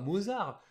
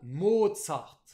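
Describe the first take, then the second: First: The name is pronounced the French way. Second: The name is pronounced the German way. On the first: The speaker calls it wrong. "nous on dit Mozart parce qu'on le voit écrit Mozart" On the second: The speaker calls it right. "qui se prononce bien à l'allemande"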